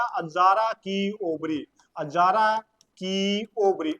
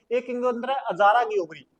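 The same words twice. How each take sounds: First: Azara की ovary drawn out slowly, the long आ in Azara stretched; slow dictation. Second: Said in the usual way. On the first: Shown as a demonstration. Teacher to class, repeating the room's name slowly. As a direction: say the name slowly so students catch it. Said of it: "teacher repeats term slowly". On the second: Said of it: "term in running sentence".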